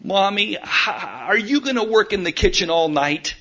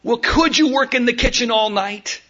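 First: Put-on a light child's voice, plain pitch; child calling from her room. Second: Put-on higher, childlike pleading voice; pleading little girl. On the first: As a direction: call out gently like a little girl from the next room. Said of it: "was the voice heard". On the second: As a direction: beg like a small girl who doesn't want to be alone. Daughter pleads with mom.

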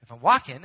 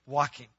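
First: Walking pushed louder in the quote; stress on walking. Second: Walking said alone, leaned on; stress on walking. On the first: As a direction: punch walking in the question. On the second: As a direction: give walking its full weight. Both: Shown as a demonstration. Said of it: "emphasize the word walking".

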